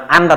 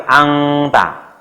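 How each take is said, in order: First: Anta said plainly with a clear n; anta, the n not nasalised to ng; wrong reading. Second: Angta drawn out slowly, n turned to ng; correct reading. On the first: Teacher to parents showing the wrong reading, plain n. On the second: Teacher to parents showing the correct reading, slow angta. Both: Shown as a demonstration. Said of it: "Bukan anta, tapi angta".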